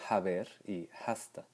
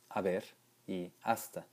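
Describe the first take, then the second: First: The h at the start is pronounced. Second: The h at the start is silent. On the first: This is an older way of saying it. "no haber y hasta" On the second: This is how everyone says it today. "Hoy todos pronunciamos"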